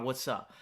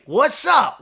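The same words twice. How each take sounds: First: Casual quiet greeting. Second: Loud, high excited hello; excited greeting. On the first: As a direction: toss off a quiet hello. Greeting another viewer, casually. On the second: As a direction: call out a big cheerful hello. Greeting a viewer joining chat. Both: Real, not acted.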